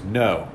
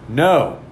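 First: Said in the usual way. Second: Firm refusal. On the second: Retold or imitated. Drunk friend refuses more firmly.

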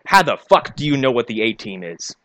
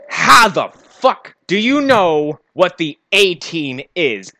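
First: Said in the usual way. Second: "How the fuck" drawn out slowly, word by word; slow, incredulous hammering of every word up to "A-Team"; exasperated emphasis. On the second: Real, not acted. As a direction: stretch "How the fuck do you know" in exasperation. Exasperated repeat of his question.

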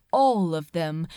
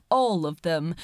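No difference in how they are said.

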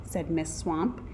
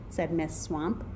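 Both takes have the same delivery.

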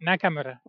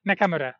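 First: Nakamura with open Japanese a's, na-ka-mu-ra; corrected Japanese name. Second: Nakamura with English vowels, NAK-am-ura; first try at the name. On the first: Vlogger corrects the name Nakamura, careful Japanese vowels. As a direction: say Nakamura the Japanese way, even syllables. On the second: Vlogger first says the Japanese name Nakamura, anglicized. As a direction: say Nakamura anglicized, flat a's. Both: Shown as a demonstration. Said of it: "I forgot".

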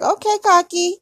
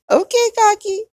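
First: High, louder sassy jab; sassy put-down. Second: High, louder, laughing through the words; laughing repeat. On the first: Retold or imitated. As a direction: tease him for being so full of himself. Mock-sassy reply to his boast. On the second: Real, not acted. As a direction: say it again, still laughing.

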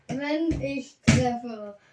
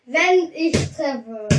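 First: Giggling through the words; slow, laughing as you speak. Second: Said in the usual way. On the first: Real, not acted. Repeats it while laughing.

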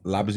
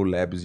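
First: "Labs" as Brazilian "lábis", slow; Portuguese pronunciation. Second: "Labs" as English-style "lebs", slow; English pronunciation. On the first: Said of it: "em português". ("Labs" à brasileira, soando "lábis") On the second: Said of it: "em inglês". ("Labs" em inglês, soando "lébis") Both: Shown as a demonstration.

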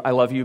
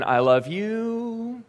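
First: Said in the usual way. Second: High, very slow and softly stretched; a lingering, high, slow I love you hanging in the air; drawn-out hopeful I love you. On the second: Acted. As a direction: draw out each word of I love you, waiting for an answer. Saying I love you, unanswered.

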